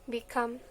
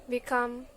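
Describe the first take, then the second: No difference in how they are said.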